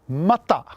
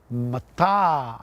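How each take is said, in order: First: Both vowels are short. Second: The second vowel is long. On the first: It means raw. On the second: It means obsidian.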